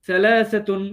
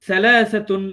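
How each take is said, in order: The two takes are said the same way.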